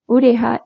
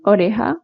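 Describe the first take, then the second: First: It is said in Maghreb Spanish, with u and i. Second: It is said in standard Spanish, with o and e.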